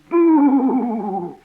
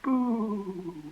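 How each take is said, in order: First: It is said loudly. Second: It is said gently.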